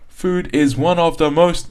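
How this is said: The words 'of the' are stressed and prominent. The speaker calls it wrong. "you're stressing these sounds"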